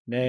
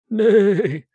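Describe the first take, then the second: First: It is said in a plain, ordinary voice. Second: It is said in the film character's voice.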